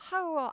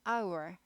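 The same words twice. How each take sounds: First: The word begins with an audible h sound. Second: The word begins without any h sound. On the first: The speaker calls it wrong. "아니고" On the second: The speaker calls it right. "H가 묵음이에요. 발음이 아예 안 나요"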